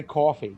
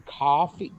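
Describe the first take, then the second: First: "coffee" with a rounded "aw" first vowel; New York "coffee". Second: "coffee" with an open "ah" first vowel; non-New-York "coffee". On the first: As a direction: say "coffee" as CAW-fee, New York style. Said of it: "I have to say coffee". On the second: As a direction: say "coffee" as KAH-fee. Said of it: "I can't say co". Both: Shown as a demonstration.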